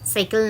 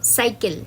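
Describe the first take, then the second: First: It begins with a palatal 'sh' sound. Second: It begins with a dental 's' sound. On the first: The speaker calls it wrong. "সাইকেল না কিন্তু" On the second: The speaker calls it right. "এখানেও কিন্তু সেইভাবেই যদি উচ্চারণ করে থাকো তোমরা ঠিকঠাক"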